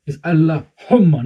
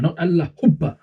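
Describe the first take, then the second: First: "Allahumma" said slowly with a clear, doubled m; correct pronunciation. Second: "Allahubba" with a b where the m should be, said mockingly; wrong pronunciation mocked. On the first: Teacher showing the pupil the right word, slow and careful. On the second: Teacher mocking the pupil's mistake, b for m. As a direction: mimic the pupil's "Allahubba" with a b sound. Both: Shown as a demonstration.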